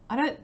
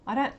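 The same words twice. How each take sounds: The two takes are said the same way.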